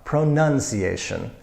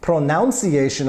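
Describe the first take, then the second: First: The middle of the word does not sound like pronounce. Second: The middle of the word sounds like pronounce. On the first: The speaker calls it right. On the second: The speaker calls it wrong. "pronunciation I hear very often, no, no"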